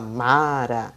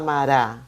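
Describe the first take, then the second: First: The stress is on the first syllable. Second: The stress is on the second syllable. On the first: The speaker calls it right. "Fala Mara. Então, é a sílaba mais forte" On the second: The speaker calls it wrong. "ninguém fala Mará"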